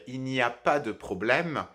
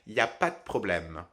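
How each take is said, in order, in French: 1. Chaque mot et chaque syllabe sont prononcés en entier. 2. Des mots sont escamotés et le e de « de » disparaît. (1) "la version standard" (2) "dans la version orale informelle"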